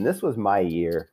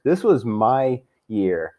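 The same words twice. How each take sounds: First: Said in the usual way. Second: Slow, bitter insistence; slow emphatic repeat. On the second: Real, not acted. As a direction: stretch it out slowly, leaning on was.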